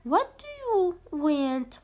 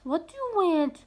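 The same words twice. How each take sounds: First: Slow, stretched question to Dina; dad asking Dina, read slowly; slow model question. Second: Said in the usual way. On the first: Shown as a demonstration. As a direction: draw it out for pupils to copy. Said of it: "قالها دينا". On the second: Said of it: "شنو تردين؟".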